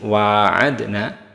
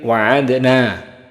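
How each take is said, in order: First: The first vowel is held long. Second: The first vowel is kept short. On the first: "bisa dibaca dengan ada alif" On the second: "dan juga tanpa alif"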